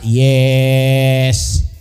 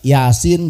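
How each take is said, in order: First: It is shortened to a single syllable. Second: It is read in full as ya-sin. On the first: The speaker calls it wrong. "Coba kalau anaknya nggak bisa baca Quran, Yasin dibaca yes" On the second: The speaker calls it right. "kan tulisannya iya sama sin"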